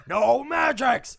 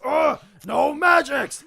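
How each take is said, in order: First: Loud, slow, higher shout; angry orc shout. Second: Loud, high, slow shout; angry orc shout. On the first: Orc shaman shouts the ban after firing at the wall, loud and slow. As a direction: yell the ban at the prisoners. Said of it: "and he says". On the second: Orc shaman shouts in pain as his hair gets pulled, loud and slow. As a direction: bark it out as your hair is yanked. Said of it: "He goes". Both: Acted.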